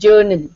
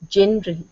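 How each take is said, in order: First: The first syllable sounds like 'jur'. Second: The first syllable sounds like 'jen'. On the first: The speaker calls it wrong. "normally when a common person speaks, he says journal" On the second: The speaker calls it right. "It is not journal, general"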